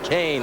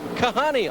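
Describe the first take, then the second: First: The name is said with two syllables. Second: The name is said with three syllables. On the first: The speaker calls it right. "Everyone knows now, it's Kasey Kahne" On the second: The speaker calls it wrong. "people had trouble with Kahne. I got called Kahani a lot"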